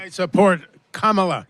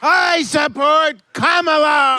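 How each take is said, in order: First: It is said quietly. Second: It is said loudly.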